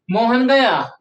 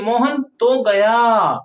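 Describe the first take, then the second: First: Said in the usual way. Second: Slow, तो drawn out and pressed; stressing तो slowly. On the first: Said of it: "उतना असर नहीं". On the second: Shown as a demonstration. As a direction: dwell on तो.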